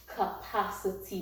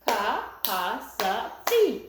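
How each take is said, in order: First: Said in the usual way. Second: "Capacity" very slowly, ca-pa-ci-ty; syllable by syllable. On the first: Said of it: "is called". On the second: Shown as a demonstration. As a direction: chop "Capacity" into four separate beats. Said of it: "Let's start with the syllables".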